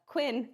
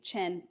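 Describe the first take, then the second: First: The word begins with a 'kw' sound. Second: The word begins with a 'ch' sound. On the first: The speaker calls it wrong. "what looks like" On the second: The speaker calls it right. "if it's a Q, it is a Ch"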